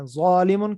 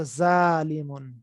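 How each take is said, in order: First: "ظالمون" with a heavy, thickened first sound and rounded aw-like vowel; thick, heavy consonant. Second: "ظالمون" with a thin, light z and open aa, drawn out slowly; thin the first sound of "ظالمون" to a plain z; thin, light consonant. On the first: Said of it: "ان دونوں کے اندر فرق کیا ہے". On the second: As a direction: say "ظالمون" light, not heavy. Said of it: "اس کو پتلا باریک کریں گے". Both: Shown as a demonstration.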